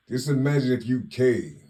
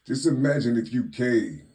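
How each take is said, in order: Both takes have the same delivery.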